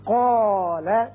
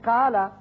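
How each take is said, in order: First: The long vowel is full and heavy. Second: The long vowel is thin and light. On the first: The speaker calls it right. "पुर होगा" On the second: The speaker calls it wrong. "ये गलत होगा... कौफ तो आपने मोटा पढ़ा लेकिन अलिफ नहीं पढ़ा"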